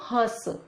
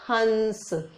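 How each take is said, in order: First: The vowel itself is nasalized. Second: A clear n sound follows the vowel. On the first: It means to laugh. "अगर हम इसको चंद्र बिंदु लगा दें तो इसको हंस" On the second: It means a swan. "ह में अंग की बिंदी यानी अंग की मात्रा, तो इसको पढ़ते हैं हम हंस"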